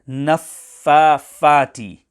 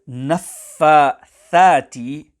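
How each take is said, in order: First: The middle consonant is an f sound. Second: The middle consonant is a th sound. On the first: The speaker calls it wrong. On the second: The speaker calls it right.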